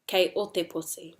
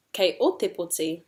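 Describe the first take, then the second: First: KEI leading, no peak on O; making a statement. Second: O lifted sharply, then falling through POTI; expression with intonation. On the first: Teacher repeats sequence in te reo, even statement from KEI. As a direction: state "Kei o te poti" evenly, falling. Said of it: "making a statement". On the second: Teacher repeats sequence in te reo, O lifted. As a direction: peak on "o", then come down. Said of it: "we have expression, intonation up". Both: Shown as a demonstration.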